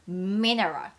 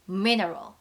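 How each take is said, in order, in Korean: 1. 영어 발음으로 발음해요. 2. 영어 발음으로 발음해요.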